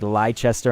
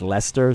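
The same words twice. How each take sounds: First: The name is read out as it is spelled. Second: The name is said in shortened British form. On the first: "they have like Leicester" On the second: "it's Leicester"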